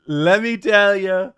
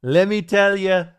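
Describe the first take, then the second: First: Slow, louder Trump catchphrase; Trump impression. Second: Loud Trump catchphrase; hammed-up Trump, punch tell; Trump impression. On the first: Trump pitching to Bubba, slow and loud. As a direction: drag it out like Trump savoring it. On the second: Trump starting his pitch to Bubba, loud. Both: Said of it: "Trump tells Bubba".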